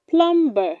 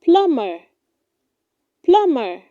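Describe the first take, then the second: First: Plumber with a sounded b, "plum-ber"; wrong pronunciation. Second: Plumber said as "PLUM-er"; correct pronunciation. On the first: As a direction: pronounce the b in plumber. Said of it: "do not say". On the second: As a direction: keep the b in plumber silent. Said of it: "It is pronounced". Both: Shown as a demonstration.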